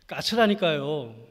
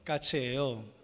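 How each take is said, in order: First: It is said with mild irritation. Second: It is said calmly and plainly.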